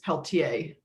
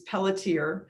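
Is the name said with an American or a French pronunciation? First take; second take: French; American. First: The name has a French Canadian pronunciation. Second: The name has an American English pronunciation. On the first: "The original sort of French Canadian" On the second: "the Americanized version"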